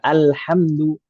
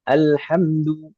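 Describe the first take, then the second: No difference in how they are said.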